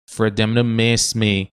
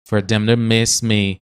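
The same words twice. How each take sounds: No difference in how they are said.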